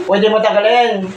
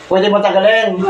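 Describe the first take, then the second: No difference in how they are said.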